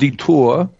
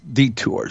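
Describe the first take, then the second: First: The name is pronounced in a French way. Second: The name is pronounced in a plain English way. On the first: The speaker calls it wrong. "The French pronunciation" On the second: The speaker calls it right. "No, it's not, Randy. It's Detour"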